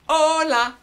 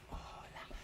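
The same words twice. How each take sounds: First: Hola sung high and loud; loud call. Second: Hola whispered, no voice; whispered echo. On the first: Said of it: "I'll sing 'em". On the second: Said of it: "you sing 'em back". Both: Shown as a demonstration.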